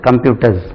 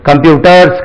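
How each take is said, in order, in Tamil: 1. இந்த சொல் ரீங்கரிக்கும் z ஒலியில் முடிகிறது. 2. இந்த சொல் சீறும் s ஒலியில் முடிகிறது. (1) "Z என்று உச்சரிக்க வேண்டும்" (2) "கிடையாது"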